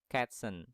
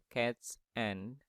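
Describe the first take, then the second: First: The final s sound links onto the next word. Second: The two words are said separately, without linking. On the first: The speaker calls it right. "kalau kita linkkan itu ... tapi cats and" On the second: The speaker calls it wrong. "bukan cats and"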